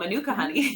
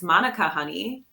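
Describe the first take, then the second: First: The first syllable of Manuka is unstressed. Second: The first syllable of Manuka is stressed. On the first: The speaker calls it wrong. "we are mispronouncing" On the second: The speaker calls it right. "there's an accent on the A"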